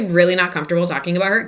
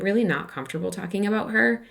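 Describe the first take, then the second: First: The tone is blunt and harsh. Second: The tone is soft and kind. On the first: The refusal comes across as too forward. The speaker calls it wrong. "Yikes, right?" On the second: The refusal comes across as gentle. The speaker calls it right. "just a little more kindly"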